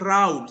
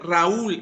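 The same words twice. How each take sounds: First: The stress falls on the first syllable. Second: The stress falls on the second syllable. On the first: The speaker calls it wrong. "no se dice Raúl" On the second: The speaker calls it right. "se dice Raúl ... necesita un acento en donde, en la U"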